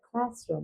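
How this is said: It is said in a British English accent. "British অ্যাকসেন্টে বলা হয়"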